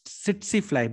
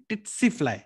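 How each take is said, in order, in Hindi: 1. यह शब्द s की आवाज़ से शुरू होता है। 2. यह शब्द t की आवाज़ से शुरू होता है। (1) "यूके साइड जाओगे ना तो ये पहला टी खा जाएंगे" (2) "यूएस साइड जाओगे ना तो ... सेकंड एस खा जाएंगे"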